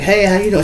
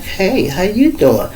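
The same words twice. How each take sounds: First: Said in the usual way. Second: Slow, drawn-out hello in her voice; her inviting greeting. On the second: Retold or imitated. The woman answering him with a slow, inviting hello. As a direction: stretch it out, inviting him to stay. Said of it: "the way she spoke back".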